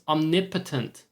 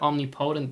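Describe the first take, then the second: First: The stress falls on the syllable 'nip'. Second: The stress falls on the syllable 'po'. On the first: The speaker calls it right. "I learned it's omnipotent" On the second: The speaker calls it wrong. "I've always said omnipotent because that is what makes fucking sense"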